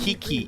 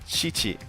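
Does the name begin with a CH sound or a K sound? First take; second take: K; CH. First: The name begins with a hard K sound. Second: The name begins with a CH sound. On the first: The speaker calls it wrong. "I kept saying" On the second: The speaker calls it right. "how to say correctly"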